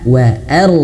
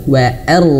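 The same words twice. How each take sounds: Both takes have the same delivery.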